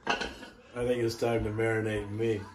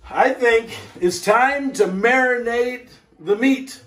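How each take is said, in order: First: Quiet sly aside. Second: High, lifted cheerful rising line; bright announcement. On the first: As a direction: lower and softer, a sly confiding twist. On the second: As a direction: sing it out brightly with a rise at the end. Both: Acted. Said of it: "Actually, you know what?".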